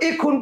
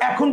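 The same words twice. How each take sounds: First: The first vowel sounds like 'e' in bed. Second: The first vowel sounds like 'a' in cat. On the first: The speaker calls it wrong. "তুমি কি বলো এখন পড়তে বসো" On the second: The speaker calls it right. "তুমি এটার উচ্চারণ কি বলছো এখন পড়তে বসো"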